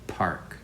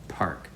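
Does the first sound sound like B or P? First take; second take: P; P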